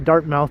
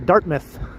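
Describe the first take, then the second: First: It is pronounced the way outsiders say it. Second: It is pronounced the way local residents say it. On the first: This is not how residents say the name. The speaker calls it wrong. "people there don't say Dartmouth" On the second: This is how residents say the name. The speaker calls it right. "they say Dartmouth"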